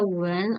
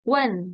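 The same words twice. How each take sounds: First: The tone is not a sharp fall. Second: The tone falls sharply and clearly. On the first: It means to kiss. "when yang artinya mencium" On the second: It means to ask. "nada empat, nada empatnya harus jelas banget ya"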